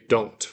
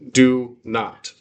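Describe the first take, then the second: First: It is said as one shortened word. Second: It is said as two full words. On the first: "just because it's faster. It sounds sounds better" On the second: "That apostrophe stands for oh"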